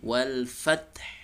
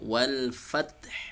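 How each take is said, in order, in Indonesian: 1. Bunyi h di akhir terdengar jelas. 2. Bunyi h di akhir terdengar jelas.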